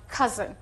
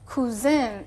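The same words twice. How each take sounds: First: It uses the standard English pronunciation. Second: It uses a Turkish learner's pronunciation. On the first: The speaker calls it right. "instead of cousin" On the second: The speaker calls it wrong. "they pronounce it as cousin"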